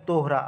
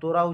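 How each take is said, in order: First: It is said with an h sound. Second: It is said without an h sound. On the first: The speaker calls it right. "এটা actually হবে তোহরা" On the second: The speaker calls it wrong. "এখানে তোরা উচ্চারণ আছে"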